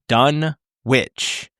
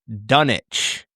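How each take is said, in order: First: The W in the middle is pronounced. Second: The W in the middle is silent. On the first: This is how the characters in the film say it. The speaker calls it wrong. "Every person in the movie pronounces the town's name as" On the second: This is how the town's name is actually said. The speaker calls it right. "In fact, it is pronounced Dunwich. With a silent W"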